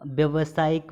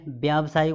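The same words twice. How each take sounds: First: First व्यावसायिक as "vya-va-saayik"; wrong short vowel. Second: व्यावसायिक as "vyaav-saayik"; long first vowel. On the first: Teacher showing the error, short-a व्यावसायिक. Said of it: "में व्यावसायिक होता है". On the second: Teacher correcting students, long "vyaa" in व्यावसायिक. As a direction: hold the aa opening व्यावसायिक. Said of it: "होता है". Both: Shown as a demonstration.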